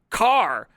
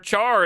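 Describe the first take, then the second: First: The word begins with a k sound. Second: The word begins with a ch sound. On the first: "and not car" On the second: "you call char char"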